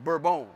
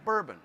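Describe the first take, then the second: First: The name has a French pronunciation. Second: The name has an English pronunciation.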